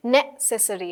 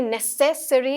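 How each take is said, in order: First: necessary with the stress on the first syllable; necessary stressed NE-ces-sary. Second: necessary with the stress on the second syllable; necessary stressed ne-SES-sary; shifted stress. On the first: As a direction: hit the NE of necessary. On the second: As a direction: lean slowly on the SES in necessary. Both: Shown as a demonstration. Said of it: "stress भी अलग-अलग होता है".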